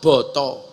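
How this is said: It is said in Javanese, with o-sounds.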